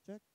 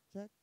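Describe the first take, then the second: Both takes have the same delivery.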